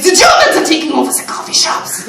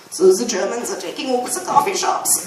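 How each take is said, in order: First: Hammed-up German accent, higher and louder; thick mock German accent to a customer; over-the-top fake German accent, laughing. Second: Mock German accent on the coffee shop line; playful fake German accent. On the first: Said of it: "slip in and out of the accent". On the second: Shown as a demonstration. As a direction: put on a light German accent. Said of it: "I was talking like that just randomly".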